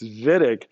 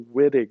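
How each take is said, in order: First: The name begins with a V sound. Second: The name begins with a W sound. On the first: The speaker calls it right. "he's German, so W is a V sound" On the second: The speaker calls it wrong. "Don't call it the Wittig reaction"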